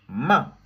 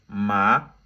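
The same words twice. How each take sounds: First: The pitch drops sharply from high to low. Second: The pitch rises from low to high. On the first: "ça vient du haut, ça descend en bas... c'est brusque" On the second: "du bas vers le haut"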